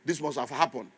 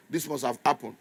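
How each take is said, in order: Both takes have the same delivery.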